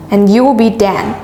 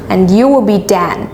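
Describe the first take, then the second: No difference in how they are said.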